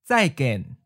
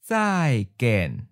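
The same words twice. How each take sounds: First: It is said at a natural, quick pace. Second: It is said slowly and carefully. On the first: "Once natural speed" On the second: "and then slow"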